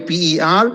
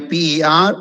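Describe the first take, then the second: Both takes have the same delivery.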